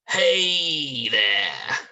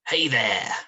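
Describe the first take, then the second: First: The word hey is stretched very long. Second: The word hey is said short.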